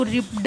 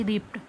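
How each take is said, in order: First: रिप्ड said as rip-d, ending on a clear voiced d; wrong spelling pronunciation. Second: रिप्ड said as ript, ending on a crisp t; correct pronunciation. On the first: Teacher showing students the wrong way, ending रिप्ड on a d. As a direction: sound out रिप्ड letter by letter with a final d. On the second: Teacher giving students the right form, रिप्ड ending on a t. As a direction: finish रिप्ड with a short t sound, no d. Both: Shown as a demonstration. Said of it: "रिप्ड नहीं बोलेंगे".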